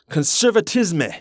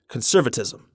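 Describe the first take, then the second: First: It is pronounced the French way. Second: It is pronounced the English way. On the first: "thank God I took French in high school so I could pronounce this" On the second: "for you English speakers out there"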